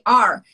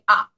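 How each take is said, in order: First: The ending is said with an R sound. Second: The ending is said without an R sound. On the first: This is how Americans say it. "in America say are" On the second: This is how Australians say it. "in Australian English, usually you say ah"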